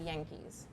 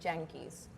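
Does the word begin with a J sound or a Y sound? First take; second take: Y sound; J sound. First: The word begins with a Y sound. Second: The word begins with a J-like sound. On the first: This is the English pronunciation. "if I were to say it in English" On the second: This is how Spanish speakers read it. "we say it as we read it"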